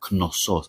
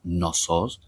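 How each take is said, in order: First: The initial K sound is clearly pronounced. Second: The initial K is silent, starting like no. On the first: The speaker calls it right. "the K is pronounced, we say Knossos" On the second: The speaker calls it wrong. "it's not Knossos, as in the word no"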